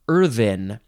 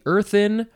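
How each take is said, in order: First: The TH sound is hard. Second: The TH sound is soft.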